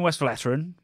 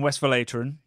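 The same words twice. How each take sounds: First: The ending rhymes with brethren. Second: The ending does not rhyme with brethren. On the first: The speaker calls it wrong. "I'm gonna have to say it the other way" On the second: The speaker calls it right. "the correct pronunciation"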